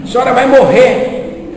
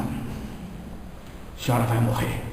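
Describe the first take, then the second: First: Raised, higher and louder; loud declaration. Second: Hushed and slow, almost no voice; slow near whisper. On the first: Medium loudly repeats the warning to the lady, raised and emphatic. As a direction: proclaim it at her, pushing the word vai. Second louder try at telling her. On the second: Medium whispers the death news to the lady, hushed and slow. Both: Retold or imitated.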